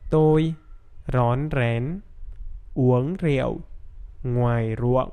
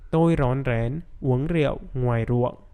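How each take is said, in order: First: The sentence is spoken somewhat slowly. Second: The sentence is spoken at normal speed. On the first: "Now a little bit faster" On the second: "Now with normal speed"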